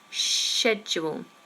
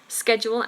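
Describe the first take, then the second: First: It is said in a British accent. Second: It is said in an American accent. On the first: "British English is schedule" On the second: "American is schedule, sk sk"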